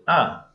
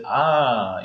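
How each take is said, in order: First: The pitch stays level across the word. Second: The pitch falls across the word. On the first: The speaker already expected it. "that's a you know even tone" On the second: Something really surprised the speaker. "that that's kind of a tone, you know, falling tone"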